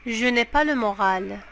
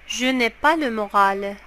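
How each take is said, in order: Both takes have the same delivery.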